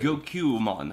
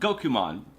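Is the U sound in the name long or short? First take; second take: long; short. First: The U sound is held long. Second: The U sound is cut short. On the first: It names the intended character. The speaker calls it right. "the elongated U is actually necessary" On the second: It names a totally different character. The speaker calls it wrong. "with that shortened U sound"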